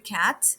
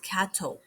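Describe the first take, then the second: First: The word ends on the t sound. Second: An extra vowel is added after the t. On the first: "We have the cat" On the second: "they will add this"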